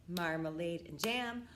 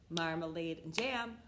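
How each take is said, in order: No difference in how they are said.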